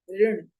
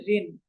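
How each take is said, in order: First: ऋण begun on the vocalic ऋ sound; ऋण with syllabic r; correct pronunciation. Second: ऋण as plain "rin"; ऋण flattened to "rin"; everyday mispronunciation. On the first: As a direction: draw out a careful ऋ in ऋण. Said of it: "शब्द है". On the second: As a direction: say ऋण with र plus a short i. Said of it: "हम इसको कहते हैं". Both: Shown as a demonstration.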